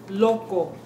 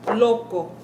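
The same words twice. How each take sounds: The two takes are said the same way.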